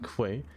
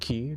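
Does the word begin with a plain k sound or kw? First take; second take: kw; k. First: It starts with a kw sound. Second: It starts with a plain k sound. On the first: The speaker calls it wrong. "not quay" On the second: The speaker calls it right. "It's pronounced key"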